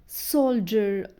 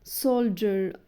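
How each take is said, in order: No difference in how they are said.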